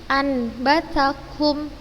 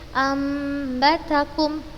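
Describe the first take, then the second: First: The nasal before b is a plain n. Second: The nasal before b is a nasalised m. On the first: The speaker calls it wrong. "Ustazah bukan membacanya" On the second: The speaker calls it right. "Kita ganti menjadi suara mim dan kita gunnahkan"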